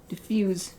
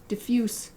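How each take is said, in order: No difference in how they are said.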